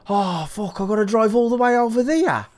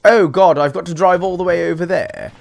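First: Put-on Black Country accent. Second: Put-on louder British moan, out of Black Country accent; non-Black Country British accent. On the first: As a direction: imitate a groaning Brit in Black Country accent. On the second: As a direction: groan it in a more neutral British accent. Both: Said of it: "maybe not in a black country accent".

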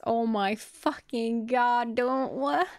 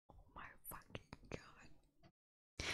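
First: Loud, higher, drawn-out disbelief; stunned outburst. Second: Slow, barely voiced whisper; stunned whisper. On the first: Reader breaking off the story to react, stunned outburst. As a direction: blurt it out slowly, rising in shock. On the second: Reader reacting to the story, stunned whisper. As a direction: whisper it in disbelief, drawing it out. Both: Real, not acted.

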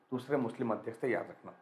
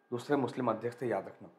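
No difference in how they are said.

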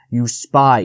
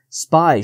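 First: Louder hiss of contempt; hissed accusation. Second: Higher cry of an accusing jay; mild narrated bird shriek; shrieked accusation. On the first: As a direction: spit it out as a narrated fox. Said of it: "he hissed". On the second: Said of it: "shrieked the jay". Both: A narrator's reading.

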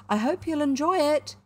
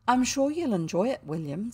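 First: High, louder cheery send-off; cheerful call. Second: Lightly voiced soothing mother, pitched up. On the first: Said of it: "she called cheerfully". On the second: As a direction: reassure with an upbeat lilt. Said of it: "said Missus Brown soothingly". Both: A narrator's reading.

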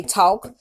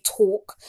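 First: Said in the usual way. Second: Mock New York "talk", drawn-out aw vowel; imitated New York accent. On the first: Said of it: "the other time you say talk". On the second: Mocking a poser's fake New York accent on "talk". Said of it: "You try to talk with an accent".

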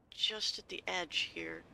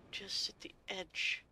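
First: Said in the usual way. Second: Slow breathless whisper to herself. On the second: Real, not acted. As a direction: whisper it slowly while aiming the jump. Aiming a careful jump.

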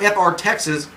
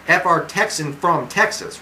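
First: Said in the usual way. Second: "F R Texan" said slowly, each part spelled out; slow down and correct "Texan" carefully; slow careful correction. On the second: Shown as a demonstration. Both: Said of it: "wait, F R Texas from Texas".

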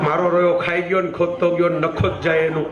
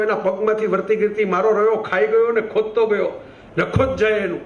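First: Laughing repeat. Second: Lightly voiced maid cursing the thief, ending on a fall at ગયો; a mild mock rant of a housemaid in dialect; servant's curse. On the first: Shown as a demonstration. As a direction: repeat મારો રહ્યો ખાઈ ગયો ને ખોદતો ગયો with a laugh through it, savoring the Kathiawadi words. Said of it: "કાઠિયાવાડીમાં લઈ આવ્યા". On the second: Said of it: "આવું નોકરબાઈ બોલી".

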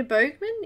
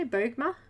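First: "Bogman" with a final n; uncertain pronunciation. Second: "Bogma" with no final n, rising; corrected pronunciation. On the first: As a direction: try "Bogman" ending on a clear n. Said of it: "Is that how you say?". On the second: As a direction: try "Bogma" ending on an open vowel. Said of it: "I should say". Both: Shown as a demonstration.

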